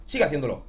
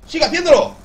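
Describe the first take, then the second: First: Said in the usual way. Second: High, loud hype shout. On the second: Real, not acted. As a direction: scream it to pump yourself up. Eres una máquina motivando.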